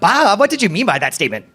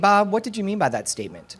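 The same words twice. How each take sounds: First: The tone is sharp, accusing and confrontational. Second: The tone is calm, neutral and curious. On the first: The speaker is blaming the listener. The speaker calls it wrong. "my rate of speech, my intonation, my inflection tells a different story" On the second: The speaker genuinely wants to understand. The speaker calls it right. "make sure it's in that neutral tone, non-accusatory"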